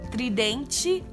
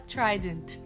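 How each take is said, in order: First: The word ends with an added final vowel. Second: The word ends without an added final vowel. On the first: The speaker calls it wrong. "eu falava tridente até 2 anos atrás. Quando não é pra falar tridente" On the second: The speaker calls it right. "O pessoal aqui no Brasil fala trident"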